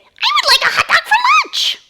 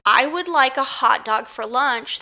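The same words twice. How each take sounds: First: Very high, loud squeaky hamster. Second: Said in the usual way. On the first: Shown as a demonstration. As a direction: squeak it out like a tiny toy hamster. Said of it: "in a hamster voice". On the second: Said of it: "that kind of would be like, if you said".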